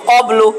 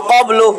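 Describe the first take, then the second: The two takes are said the same way.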